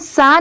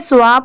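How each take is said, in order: First: It is said with a plain short 'a' vowel. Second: It is said with a 'w' glide before 'a'. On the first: "इसे हम सा नहीं पढ़ेंगे" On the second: "बहुत सारे लोग इसे स्वा पढ़ते हैं, बट नहीं"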